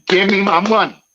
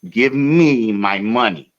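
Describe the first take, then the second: First: High, louder put-on demand; mock tough demand. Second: Each word spaced out, slow; slow and insistent; slow insistent demand. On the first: Demanding his money back from the driver, hammed-up tough voice. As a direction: ham up the tough guy move. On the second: Retold or imitated. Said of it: "I said".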